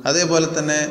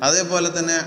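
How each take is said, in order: No difference in how they are said.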